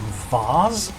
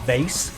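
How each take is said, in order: First: It is said with a British accent. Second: It is said with an American accent.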